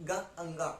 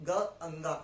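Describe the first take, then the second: No difference in how they are said.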